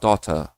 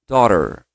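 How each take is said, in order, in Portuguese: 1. O T do meio é pronunciado forte e nítido. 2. O T do meio é pronunciado suave e leve. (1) "O som do T forte. O britânico" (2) "com a influência americana"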